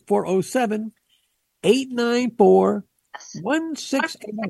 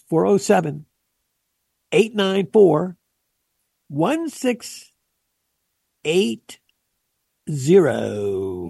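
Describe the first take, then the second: First: The number is said at normal speed. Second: The number is said slowly.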